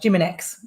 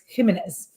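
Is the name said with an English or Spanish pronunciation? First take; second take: English; Spanish. First: The name is said with English pronunciation. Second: The name is said with Spanish pronunciation.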